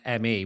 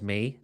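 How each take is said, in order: First: It is spelled out as two letters. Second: It is said as one word, like me.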